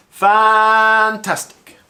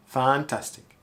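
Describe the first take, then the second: First: "fantastic" very loud, high, first syllable held long; exaggerated stretched emphasis. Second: Said in the usual way. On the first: Shown as a demonstration. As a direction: belt out a long "faaan" in "fantastic". Voiceover warm-up, exaggerating a word.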